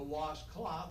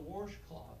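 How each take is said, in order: First: The word is said without an R sound. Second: The word is said with an R sound.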